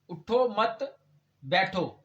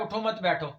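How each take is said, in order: First: The break comes after 'mat'. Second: The break comes after 'utho'.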